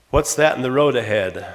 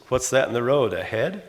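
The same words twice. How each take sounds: First: "road ahead" run together as one phrase, falling at the end; question tone on road ahead. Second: "road ahead" climbing sharply at the end; rising question tone. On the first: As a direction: ask it straight, "ahead" falling away. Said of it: "the tone pattern gives it a different meaning". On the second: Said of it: "they have different tone patterns". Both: Shown as a demonstration.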